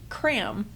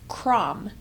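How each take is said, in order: First: The vowel sounds like the 'a' in cat. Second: The vowel sounds like the 'o' in from. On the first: This is how it is said in Germany. The speaker calls it right. "so it's actually cram" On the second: This is how the family long said it. The speaker calls it wrong. "we thought the pronunciation was Krom"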